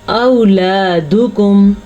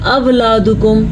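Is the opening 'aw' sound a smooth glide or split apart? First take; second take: glide; split. First: The opening vowel is one soft, smooth glide. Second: The opening vowel is broken apart, not glided. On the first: The speaker calls it right. "तो इसको हम पढ़ेंगे औलादुकुम" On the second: The speaker calls it wrong. "जो अक्सर लोग पढ़ते हैं अवलादुकुम, तो ये गलत है"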